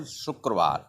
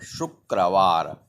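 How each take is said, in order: First: Said in the usual way. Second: Slow, low "Shukrawar", syllable by syllable; pronunciation demo. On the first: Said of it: "the pronunciation". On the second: Shown as a demonstration. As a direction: say "Shukrawar" slowly, each syllable stretched. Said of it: "The pronunciation of Hindi word".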